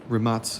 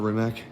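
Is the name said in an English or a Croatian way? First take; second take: Croatian; English. First: The name is said with Croatian-style sounds. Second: The name is said with English-style sounds. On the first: The speaker calls it right. "pronouncing it right. It is a Balkan language, so I gotta throw the Balkan pronunciation on" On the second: The speaker calls it wrong.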